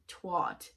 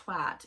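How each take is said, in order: First: The word is said with a Canadian vowel. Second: The word is said with a British vowel. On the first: The speaker calls it wrong. "for all the Canadian people, it is not pronounced twat" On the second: The speaker calls it right. "It is pronounced twat"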